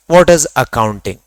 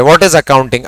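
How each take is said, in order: First: Spelled out slowly for notes; dictating pace, each word separate; slow dictation. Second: Said in the usual way. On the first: Shown as a demonstration. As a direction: say it word by word so they can write it down. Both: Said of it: "दोनों शब्द लिख रहा हूं".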